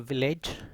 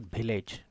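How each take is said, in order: First: The first sound uses upper teeth on lower lip. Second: The first sound does not use teeth on lip. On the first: The speaker calls it right. "So village" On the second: The speaker calls it wrong. "not village. This is incorrect"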